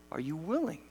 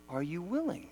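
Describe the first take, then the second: No difference in how they are said.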